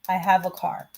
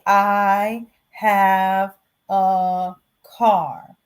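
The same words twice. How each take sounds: First: The article 'a' is reduced to a short 'uh'. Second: The article 'a' is said as a full 'ay'. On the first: The speaker calls it right. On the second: The speaker calls it wrong. "you're not going to hear a native speaker say"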